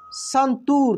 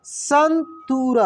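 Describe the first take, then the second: First: Said in the usual way. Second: santoor drawn out slowly syllable by syllable; slow syllable reading. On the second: Shown as a demonstration. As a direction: read santoor slowly for the class. (Santoor धीरे-धीरे खींचकर)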